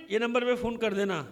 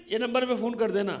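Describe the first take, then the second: No difference in how they are said.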